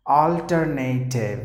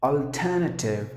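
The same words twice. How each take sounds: First: Alternative as al-ter-NAY-tiv; slow al-ter-NAY-tiv slip; common wrong way. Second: Alternative as awl-TER-nuh-tiv; correct pronunciation. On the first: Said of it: "People would always say it as". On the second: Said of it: "the perfect way to pronounce". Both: Shown as a demonstration.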